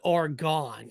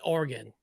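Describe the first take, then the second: First: It is said with an East Coast pronunciation. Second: It is said with a West Coast pronunciation. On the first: "everybody on the East Coast, they call it Oregon" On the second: "on the West Coast, you call it Oregon"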